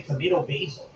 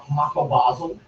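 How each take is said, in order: First: Tomato basil as toe-MAY-toe BAY-zul; long "ay" in both tomato and basil; American tomato basil. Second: Tomato basil as tuh-MAH-toe BAH-zul; broad-vowelled attempt at British tomato basil; guessed British pronunciation. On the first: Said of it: "We say tomato basil". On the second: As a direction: try "ah" in both tomato and basil. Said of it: "Or is it ba". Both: Shown as a demonstration.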